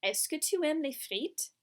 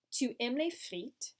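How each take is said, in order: First: "Est-ce que tu aimes les frites" higher, rising on "frites"; question intonation. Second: "Tu aimes les frites" slowly, falling on "frites"; statement intonation. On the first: Teacher shows the statement become a question, rising tune. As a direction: ask it with the pitch lifting at the end. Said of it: "and made it a question". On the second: Teacher gives the statement before adding est-ce, falling tune. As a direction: state it, letting "frites" drop. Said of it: "you have taken the statement". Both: Shown as a demonstration.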